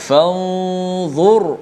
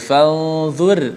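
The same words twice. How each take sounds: First: The r sound is heavy and full-mouthed. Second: The r sound is light and thin. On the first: The speaker calls it right. "dibaca dengan tebal" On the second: The speaker calls it wrong. "tidak boleh baca"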